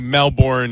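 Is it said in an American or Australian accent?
American. It is said with an American accent.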